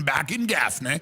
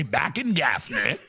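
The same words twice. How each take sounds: First: Lightly lower, repeated folksy line; father's saying. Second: A touch lower, father's folksy saying. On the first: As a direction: say it again like dad's catchphrase. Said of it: "My father had a saying". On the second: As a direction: drawl it lightly like an old Southern dad. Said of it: "My father used to say". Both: Retold or imitated.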